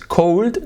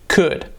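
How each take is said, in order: First: An L sound is pronounced in the word. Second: No L sound is pronounced in the word. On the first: The speaker calls it wrong. "is cold, no" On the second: The speaker calls it right.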